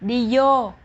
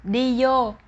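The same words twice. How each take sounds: First: Vô begins with a y sound. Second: Vô begins with a y sound.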